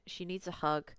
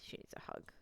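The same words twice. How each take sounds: First: Said in the usual way. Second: A soft whisper. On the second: Real, not acted. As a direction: whisper it under the breath.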